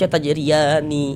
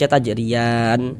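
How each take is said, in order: First: The word ends on a final i vowel. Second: The word ends on a final n sound. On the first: The word is read as if the reading continues. The speaker calls it wrong. "Jangan dibaca tajriyani baru berhenti" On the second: The reader stops at the end of this word. The speaker calls it right. "kalau berwakaf di huruf nun kita baca tajriyan"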